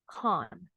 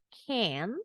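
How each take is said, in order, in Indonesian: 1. Vokalnya bunyi 'ah' panjang dan membulat. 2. Vokalnya bunyi 'a' datar di depan. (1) "orang Inggris can't" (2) "Kalau orang Amerika can"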